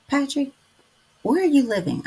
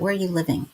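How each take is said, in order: First: Raised question. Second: Said in the usual way. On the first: Real, not acted. Asking viewer Patrick where he lives, raised high. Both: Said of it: "let me ask that".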